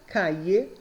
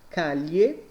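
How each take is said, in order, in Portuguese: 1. O duplo L soa como 'i'. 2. O duplo L soa como o 'lh' do português. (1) "os dois L's e o Y têm som de I" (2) "Os dois L's com som de L H"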